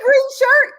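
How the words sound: The words sound warm and admiring. The person is being complimented. "that's a compliment"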